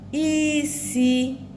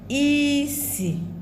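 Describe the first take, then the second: First: A high tone is followed by a mid tone. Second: A high tone is followed by a low tone. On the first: It means to cook. "to cook" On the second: It means smell.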